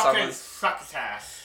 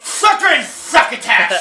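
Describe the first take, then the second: First: It is said more quietly and calmly. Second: It is yelled loudly. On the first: "you gotta calm down" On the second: "Gotta stop yelling"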